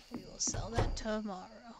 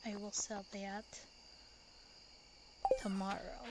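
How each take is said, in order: First: Said in the usual way. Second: Whisper. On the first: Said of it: "plain repeat after whisper". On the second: Shown as a demonstration. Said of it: "whispered take before plain repeat".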